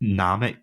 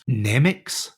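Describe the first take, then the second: First: The name is said as Namek. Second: The name is said as Nemix.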